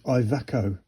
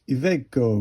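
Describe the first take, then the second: First: It is said with an anglicized pronunciation. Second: It is said with an Italian pronunciation. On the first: The speaker calls it wrong. "I always thought it was" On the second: The speaker calls it right. "which is Italian"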